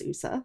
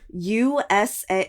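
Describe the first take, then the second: First: It is said as a single word. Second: Each letter is said separately. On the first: The speaker calls it right. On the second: The speaker calls it wrong.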